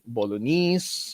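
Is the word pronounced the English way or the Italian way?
English. The word is said with an anglicized English pronunciation. "sort of anglicized to be"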